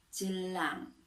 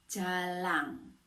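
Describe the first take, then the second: First: JELANG said distinctly with a schwa in the first syllable; clear articulation. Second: JALANG said slowly with a full "a" in the first syllable; clear articulation. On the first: Teacher contrasting similar words for pupils, clear articulation of "jelang". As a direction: articulate "jelang" carefully, short neutral first vowel. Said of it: "berbeda dengan kata". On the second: Teacher contrasting similar words for pupils, clear articulation of "jalang". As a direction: articulate "jalang" distinctly, open first vowel. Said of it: "lafal harus jelas".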